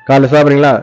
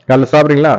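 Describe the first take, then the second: The two takes are said the same way.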